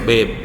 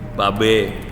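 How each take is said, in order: First: It is pronounced as the English word babe. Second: It is read letter by letter, Indonesian style. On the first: "kalau bahasa Inggris lain tuh bacanya" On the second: "Bacanya apa?"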